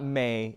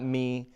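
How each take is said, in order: First: The m is followed by an ay vowel. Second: The m is followed by an ee vowel. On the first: "It's not may" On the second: "It's not me"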